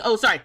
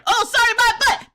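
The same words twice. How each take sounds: First: Said in the usual way. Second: Much higher and louder, scoffing at "sorry"; sarcastic retort. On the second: Real, not acted. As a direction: throw "sorry" back with disbelief. Mocking the chat's apology.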